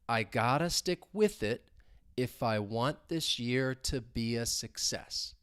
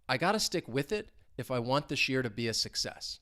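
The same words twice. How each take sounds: First: The sentence is spoken slowly. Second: The sentence is spoken at normal speed. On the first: "So let's say it slowly" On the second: "but at a normal speed"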